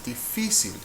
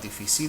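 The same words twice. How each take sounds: First: The stress is on the second-to-last syllable. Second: The stress is on the last syllable. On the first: The speaker calls it right. "force the stressed syllable" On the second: The speaker calls it wrong. "by default, a consonant-ending word should be pronounced like"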